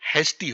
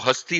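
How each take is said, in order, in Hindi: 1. पहला स्वर एक 'eh' ध्वनि है। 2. पहला स्वर एक छोटा 'uh' ध्वनि है। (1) "इंग्लिश में प्रॉपर उसका प्रोनाउंस करें तो हेस्टी होता है" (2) "रीजनल लैंग्वेज में बताते हैं तो हस्ती होता है"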